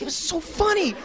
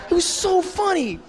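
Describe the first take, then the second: First: Much higher, gushing mock voice; gushing impression. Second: Much higher and slow, laughing through it; gushing through laughter. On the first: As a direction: squeal the praise like a giddy fan. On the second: Retold or imitated. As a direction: melt into giggles mid-praise. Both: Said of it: "Jerry just starts gushing".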